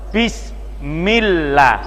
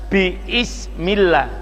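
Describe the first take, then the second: First: The b runs straight into 'smillah'. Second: A glottal catch and vowel follow the b. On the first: The speaker calls it right. "karena hamzahnya setelah ba di tengah kalimat" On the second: The speaker calls it wrong. "jadi tidak biismillah"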